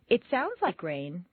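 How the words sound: It sounds doubtful, suggesting the opposite.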